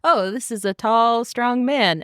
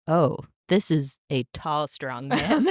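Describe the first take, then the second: First: Said in the usual way. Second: Low, laughing, smitten take; swooning. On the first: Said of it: "I like that transition". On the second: Shown as a demonstration. Podcaster acting the heroine falling for him, lovestruck. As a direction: let the words melt with attraction. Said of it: "and then it's like".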